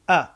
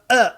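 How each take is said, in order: First: The vowel starts with a gentle, relaxed onset. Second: The vowel starts with a forced, squeezed onset. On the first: The speaker calls it right. "the gentle attack of the vocal cords" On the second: The speaker calls it wrong. "It's not forced. It's not uh"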